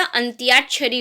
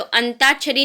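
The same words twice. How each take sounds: First: अंत्याक्षरी as "ant-yaak-shari"; correct Y glide. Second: अंताक्षरी as "an-taak-shari"; wrong, no Y. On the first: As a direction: sound the Y after T in अंत्याक्षरी. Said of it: "अंत्याक्षरी होता है". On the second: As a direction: leave out any Y after the T in अंताक्षरी. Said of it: "अंताक्षरी नहीं होता". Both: Shown as a demonstration.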